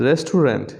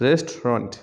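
First: রেস্টুরেন্ট in three syllables, "res-tu-rent"; common mispronunciation. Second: রেস্টুরেন্ট in two syllables, "REST-ront"; correct pronunciation. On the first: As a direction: say every syllable of রেস্টুরেন্ট as written. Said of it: "common কিছু শব্দের". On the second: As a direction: drop the middle vowel of রেস্টুরেন্ট. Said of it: "ও সঠিক উচ্চারণ". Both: Shown as a demonstration.

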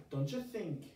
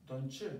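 First: "Don't you think" with don and you merged into "doncha"; English linking. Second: "Don't you" said as "doncha" with a short schwa. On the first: Teacher showing how native English speakers link words. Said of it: "como inglés, te digo a ti". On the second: Teacher showing the reduced vowel in "Don't you". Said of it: "esa A o una U normal". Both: Shown as a demonstration.

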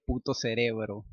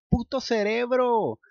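First: Said in the usual way. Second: High, loud, slow outburst; frantic curse. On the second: Acted. Luke furious at his brain, loud curse. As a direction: spit out puto cerebro.

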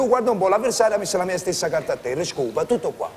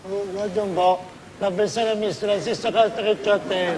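First: Modest understated win. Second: Fast parroting of the humble line; parroted modesty before the shout; mock modest repeat. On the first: Shown as a demonstration. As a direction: announce the win humbly, almost sorry. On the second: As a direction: rattle off the lesson dutifully. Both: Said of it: "Anche con un poco di tristezza".

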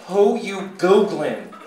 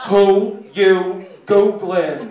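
First: Front desk lady. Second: Very slow, loud desk lady; front desk lady. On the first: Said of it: "then I hear again". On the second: Desk lady to the security guard, loud and drawn out. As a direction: stretch each word loudly across the room. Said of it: "she looks over to the security guard". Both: Acted.

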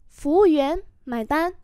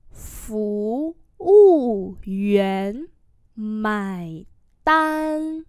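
First: Said in the usual way. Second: Very slow, long-held syllables; syllable-by-syllable model; slow demonstration. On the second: Shown as a demonstration. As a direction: draw out every tone for learners. Teacher repeats slowly for learners.

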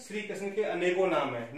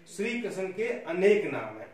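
First: अनेकों with a final nasal "on"; sample sentence using अनेकों; wrong plural form. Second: अनेक stressed, ending on k; sample sentence with emphasis on अनेक; corrected form. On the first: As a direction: end अनेकों on "-kon" as the faulty example. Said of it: "अनेक कोई शब्द है ही नहीं". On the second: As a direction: hit अनेक louder as the correction. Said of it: "नहीं". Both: Shown as a demonstration.

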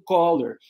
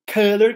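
First: "color" said "koh-lor" like collar; common mispronunciation. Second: "color" with stressed "kuh" as in bus, slow and louder; correct color. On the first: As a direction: imitate learners saying "color" with an o. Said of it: "muita gente quando vai falar cor". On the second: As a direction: stress the carrot vowel in "color". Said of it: "que é cor". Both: Shown as a demonstration.

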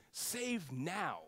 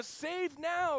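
First: Said in the usual way. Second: "save now" cried out high and loud; crowd shouting. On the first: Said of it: "the word Hosanna means save now". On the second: Retold or imitated. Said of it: "So they're saying".

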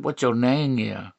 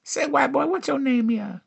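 First: Lower, understated version; low repeated question. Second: High, falling singsong question; imitated flirting woman. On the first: Acted. Comic repeats the woman's question, pitched low. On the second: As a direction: pitch it way up, then slide down. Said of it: "I had her tell me, like, uh".

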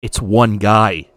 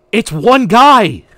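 First: Said in the usual way. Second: Loud, slow, disbelieving; incredulous rant. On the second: Retold or imitated. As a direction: stretch it out, outraged. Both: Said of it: "same exact rant".

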